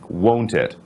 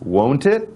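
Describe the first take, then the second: First: The voice falls at the end. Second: The voice rises at the end. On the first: The speaker expects agreement, not an answer. "As this was said with a falling voice" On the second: The speaker really wants to know the answer. "As this was said with a rising voice"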